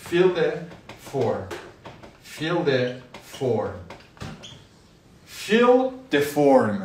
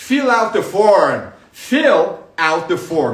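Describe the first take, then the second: First: Very slow, drawn-out fill the form; slow model. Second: Louder, slow fill out the form; emphatic correct form. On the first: Teacher drilling fill the form slowly for students. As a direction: stretch each word of fill the form. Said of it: "یعنی فرم پر کن". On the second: Teacher loudly drills the fuller form for students. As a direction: punch fill out the form out loud. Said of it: "حالا out نه". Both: Shown as a demonstration.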